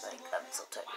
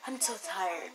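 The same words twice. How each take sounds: First: Drops to a breathy whisper, much softer and lower; tired whisper. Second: Said in the usual way. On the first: Real, not acted. Vlogger tells viewers she is worn out, in a drained whisper.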